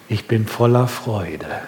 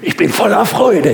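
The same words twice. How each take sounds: First: It is said flatly, with little energy. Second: It is said lively, with lots of energy. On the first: The joy is there but is not shown outwardly. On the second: The joy is shown openly.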